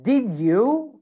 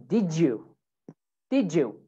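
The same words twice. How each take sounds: First: Said in the usual way. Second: "did you" run together as "didjoo"; "did you" with a J in the middle; linked J sound. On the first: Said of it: "So instead of". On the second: Shown as a demonstration. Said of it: "it makes a J sound".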